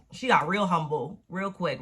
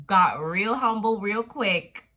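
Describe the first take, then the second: First: Said in the usual way. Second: "Got real humble real quick" slowed and louder, each word hit; savoring the punchline, slowly; slow emphatic repeat. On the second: Shown as a demonstration.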